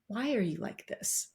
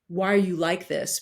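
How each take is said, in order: First: It sounds open and genuinely curious. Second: It sounds accusing and judgmental.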